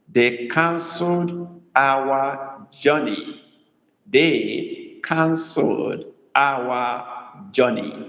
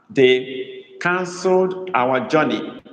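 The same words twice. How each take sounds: First: Drawn-out, canceled stressed; very slow dictation. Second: Slow dictation with canceled leaned on; stress on canceled. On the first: Teacher dictating slowly so students can write, canceled stressed. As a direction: spell it out slowly, leaning on "canceled". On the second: Teacher dictating to the class, stressing canceled. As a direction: give the class "canceled" slowly and firmly. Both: Shown as a demonstration. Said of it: "Emphasis is on canceled".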